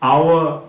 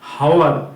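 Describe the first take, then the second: First: The word starts with a vowel, no h. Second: The word starts with an audible h sound. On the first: The speaker calls it right. "এগুলো কিন্তু সব অ দিয়ে উচ্চারণ হচ্ছে" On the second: The speaker calls it wrong. "এরকম কিন্তু আমরা বলছি না"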